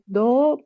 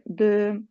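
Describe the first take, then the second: First: The vowel is an O sound. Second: The vowel is a rounded E sound. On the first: The speaker calls it wrong. "pas do" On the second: The speaker calls it right. "mais de"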